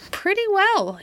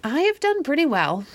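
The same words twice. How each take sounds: First: Repeated much higher, dissatisfied; discontented. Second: Grumbling, high and dissatisfied; discontented. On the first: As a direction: echo it with sulky discontent. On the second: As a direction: sound unsatisfied with your riches. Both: A narrator's reading. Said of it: "in a discontented tone".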